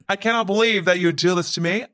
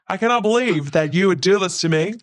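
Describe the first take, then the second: First: It is said flat and robotic, in a monotone. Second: It is said with expressive, varied pitch.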